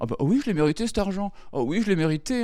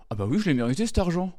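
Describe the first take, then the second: First: Much higher, hammed-up smug self-praise; smug rich kid. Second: Higher, smug mock self-congratulation; a spoiled heir purring over his money; smug rich kid. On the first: Comic mocks rich heirs, even higher and smugger. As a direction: gloat like a pampered heir. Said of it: "Et ils étaient la". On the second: Comic mocks rich heirs, smug and high. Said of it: "Et ils étaient là".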